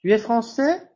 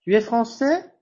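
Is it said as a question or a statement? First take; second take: question; question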